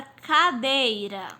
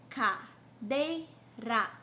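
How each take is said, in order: First: Said in the usual way. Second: "Cadeira" very slowly as "ca... dei... ra"; syllable by syllable. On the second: Shown as a demonstration. Teacher counting three syllables for pupils, "Cadeira" in separate beats. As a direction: pause after each of the three syllables of "Cadeira". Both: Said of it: "Três sílabas".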